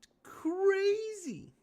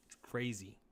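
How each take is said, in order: First: Very high, slow falsetto "It's crazy."; high drawn-out falsetto. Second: Said in the usual way. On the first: Pretend. Repeats the phrase, then mocks it.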